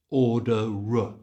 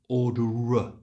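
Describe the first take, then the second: First: The r links onto a reduced uh sound. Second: The same.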